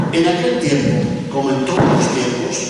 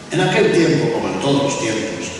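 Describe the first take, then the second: No difference in how they are said.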